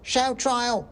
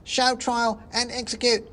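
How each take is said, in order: First: Very high squeaky cry; a tiny mob member yelling; shouting mouse. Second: Very high squeaky demand; third shouting mouse. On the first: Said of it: "shouted another voice". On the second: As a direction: egg the mob on. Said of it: "shouted a third". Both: Acted.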